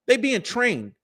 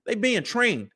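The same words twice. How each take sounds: The two takes are said the same way.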